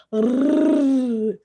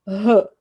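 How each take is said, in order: First: R as a long rolled tongue-tip trill; drawn-out trilled R, not the letter name; weak R sound. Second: R as a breathy "huh"; short aspirated R, not the letter name; strong R sound. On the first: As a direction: hold the R as a sustained "rrrr". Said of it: "R fraco, lembra?". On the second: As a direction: puff the R out like an H. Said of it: "R forte, tem som de R". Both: Shown as a demonstration.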